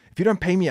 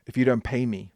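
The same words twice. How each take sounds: First: Higher, louder insistence on "don't"; louder, pushing plea; emphatic repeat. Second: Said in the usual way. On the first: Retold or imitated. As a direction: press the point hard. Pleading to Boris, repeated.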